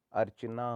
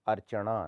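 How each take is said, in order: First: Said in the usual way. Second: अर्चना ending in a retroflex ṇa. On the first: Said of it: "होता है". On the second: Shown as a demonstration. Teacher shows the error, अर्चना with ण. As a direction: curl the tongue back for ना in अर्चना. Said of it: "नहीं होता".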